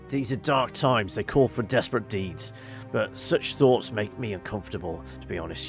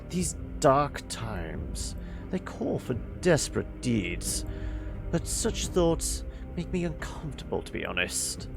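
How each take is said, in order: First: It is said in a working-class voice. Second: It is said in a more educated voice.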